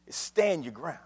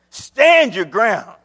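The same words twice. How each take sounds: First: Understated, lowered-voice counsel; quiet instruction. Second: "Stand" punched loud and drawn out; loud, stretched-out command; forceful repeat. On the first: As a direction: say it softly and let it sink in. First quiet take of phrase. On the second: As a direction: hit "Stand your ground" slowly and hard. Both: Real, not acted.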